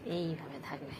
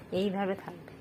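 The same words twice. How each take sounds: First: Hushed repeat of এইভাবে থাকবে; soft lulling repeat; softer and lower. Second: Said in the usual way. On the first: Shown as a demonstration. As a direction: drop the voice on the repeat.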